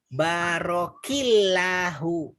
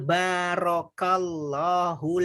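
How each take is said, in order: First: The vowel after the k is an i. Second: The vowel after the k is an a. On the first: The speaker calls it wrong. "bukan barokillahu" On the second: The speaker calls it right. "yang betul"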